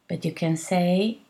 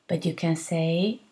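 Both takes have the same delivery.

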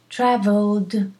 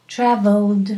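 First: The word ends with a voiced D sound. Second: The same.

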